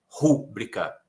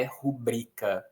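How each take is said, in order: First: Rúbrica stressed on RU, the wrong way; RU-bri-ca with the weight on the first syllable. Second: Rubrica stressed on BRI, not on RU; ru-BRI-ca with the weight on the middle; correct rubrica. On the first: Teacher imitates the common mistake rúbrica. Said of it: "não é rúbrica". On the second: Teacher models the correct rubrica. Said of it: "a pronúncia correta é rubrica". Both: Shown as a demonstration.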